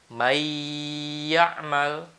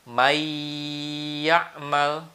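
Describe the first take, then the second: Both takes have the same delivery.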